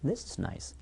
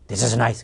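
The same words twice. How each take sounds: First: The word 'this' carries the stress. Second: The sentence is said flat, with no stressed word. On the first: "this에다 강세를 주겠습니다" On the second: "한국도 this is nice"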